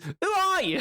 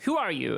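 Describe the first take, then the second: First: It is said in a strained, off American accent. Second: It is said in a natural American accent. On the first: The speaker calls it wrong. "he goes" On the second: The speaker calls it right. "Which an American accent would be like"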